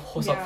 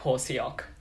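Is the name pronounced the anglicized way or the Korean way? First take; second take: Korean; anglicized. First: The name is said with its Korean pronunciation. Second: The name is said with an anglicized misreading. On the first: The speaker calls it right. "like a Hoseok, for instance" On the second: The speaker calls it wrong. "would be like Hoseok or something like that"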